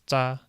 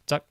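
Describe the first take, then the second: First: The syllable ends without a k sound. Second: The syllable ends with a k sound. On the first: The speaker calls it right. "but I guess it's za" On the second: The speaker calls it wrong. "I thought the middle syllable kind of had a K sound at the end"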